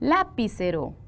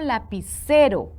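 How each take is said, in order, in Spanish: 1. El acento cae en una sílaba distinta de 'ce'. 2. El acento cae en la sílaba 'ce'. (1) "Suena mal" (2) "C es la sílaba tónica"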